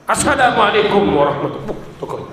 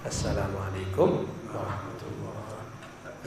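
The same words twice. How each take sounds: First: It is said very loudly. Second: It is said at a normal volume.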